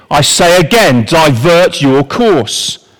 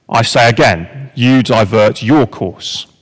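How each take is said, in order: First: Higher, louder and slow, pressing the order; a captain repeating an order over the radio, insistent; stern navy captain. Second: Calm Canadian voice. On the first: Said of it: "The American says". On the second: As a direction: answer the captain's order flatly, not giving an inch. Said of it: "The voice says". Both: Retold or imitated.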